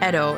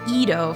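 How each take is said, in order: First: The word is said with a Japanese pronunciation. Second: The word is said with an American English pronunciation. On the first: "Edo in J- Japanese" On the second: "the Edo from Americans"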